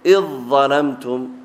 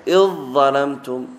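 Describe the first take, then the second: Both takes have the same delivery.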